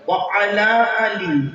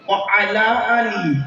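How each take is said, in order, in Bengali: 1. 'Wa' আর 'ala' আলাদা শব্দ হিসেবে বলা হয়। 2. 'Wa' আর 'ala' আলাদা শব্দ হিসেবে বলা হয়।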